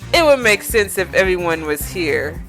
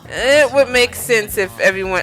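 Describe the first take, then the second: First: It is read in a normal voice. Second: It is read in a girlish voice.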